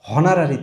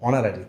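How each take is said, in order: First: The word begins with an h sound. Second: The word begins with a vowel sound. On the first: The speaker calls it wrong. "হনারারি তো না" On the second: The speaker calls it right.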